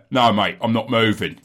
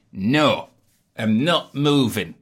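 First: A hint of a British accent, a bit louder; stubborn homeowner in a light British accent; one accent. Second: Said in the usual way. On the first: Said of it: "in one accent". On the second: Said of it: "that house was like".

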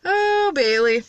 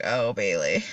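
First: High, drawn-out "Oh", falling on the name; mock reaction. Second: Low, softer mock sigh of a name; mock reaction. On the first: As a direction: stretch it out in playful mock dismay. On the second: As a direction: drop the voice low, as if reacting to a recording later. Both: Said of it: "listen to this shit later and be like".

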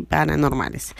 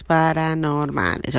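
First: Said in the usual way. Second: Paranormales, said slowly syllable by syllable; clear pronunciation. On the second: Shown as a demonstration. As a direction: paranormales drawn out slow and careful. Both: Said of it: "No es para anormales".

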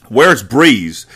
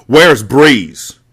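First: Screamed question. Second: Loud, high demand; screamed question. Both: A narrator's reading. Mecca demanding from Mati at gunpoint, screaming. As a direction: scream it with the gun at his face. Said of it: "Mecca screamed".

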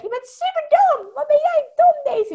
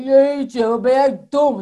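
First: Very high, louder squeaky little voice; squeaky ego voice. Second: Much louder, mocking put-on voice; ego in another voice. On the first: The ego calling Daisy stupid in a high squeaky voice. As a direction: squeal it like a silly chipmunk critic. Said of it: "maak er een heel hoog piepstemmetje van". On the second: The ego mocking Daisy, loud and cartoonish. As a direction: sneer it out like a cartoon bully. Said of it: "zo gaat praten". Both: Shown as a demonstration.

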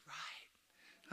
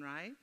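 First: "Right." whispered, much softer and unvoiced; whispered answer. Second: Said in the usual way. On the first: Shown as a demonstration. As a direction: breathe "Right." back at the room as the audience should. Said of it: "You're supposed to say, "Right". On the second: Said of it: "You're supposed to say".

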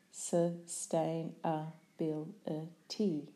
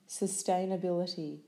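First: "Sustainability" slowly, syllable by syllable; split into syllables. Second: Said in the usual way. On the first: Shown as a demonstration.

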